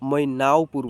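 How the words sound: The middle of the name is drawn out.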